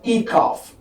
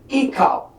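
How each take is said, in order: First: The word ends with an f sound. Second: The word ends with a p sound. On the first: The speaker calls it wrong. "not ecoff" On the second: The speaker calls it right. "Here we have the word ecop"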